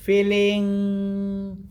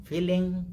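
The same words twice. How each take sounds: First: FEELING stretched long on a sustained note; drawn-out. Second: Said in the usual way. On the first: Shown as a demonstration. Meditation teacher showing how to feel, drawn-out. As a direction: hold out the last syllable of FEELING. Demonstrates feeling instead of thinking.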